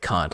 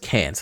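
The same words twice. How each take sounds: First: It is said with a British vowel. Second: It is said with an American vowel. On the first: This is the proper way, as the villain sees it. The speaker calls it right. "we're gonna talk in British accents here" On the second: This is the casual way the character speaks. The speaker calls it wrong. "like in an American accent"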